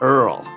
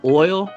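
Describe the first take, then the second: First: Oil is said in a Cajun way, like Earl. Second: Oil is said with a standard American vowel. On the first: "just Earl" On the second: "He pronounces oil"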